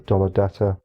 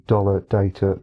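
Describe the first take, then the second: First: "data" said as DAH-tuh; "data" with an open first vowel, not "day"; DAH-ta pronunciation. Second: "data" said as DAY-tuh; "data" starting like the word "day"; DAY-ta pronunciation. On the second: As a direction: give "data" a long ay in the first syllable. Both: Shown as a demonstration. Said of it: "however you want to say that".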